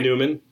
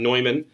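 First: The name is pronounced the English way. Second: The name is pronounced the German way. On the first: The speaker calls it wrong. "not Newman" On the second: The speaker calls it right. "the proper pronunciation is Neumann"

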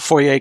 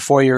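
First: It is pronounced the French way. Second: It is pronounced the English way. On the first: "clearly a French word" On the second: "foyer is the English word that's now officially a word"

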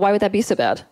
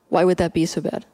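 First: It sounds dismissive and judging. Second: It sounds gentle and genuinely curious. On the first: The feeling is wrong to have. The speaker calls it wrong. "Already in the voice that I've used, I'm implying that it's wrong to feel that way" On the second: The asker wants to hear more. The speaker calls it right. "I'm actually wanting to draw a further truth out of you"

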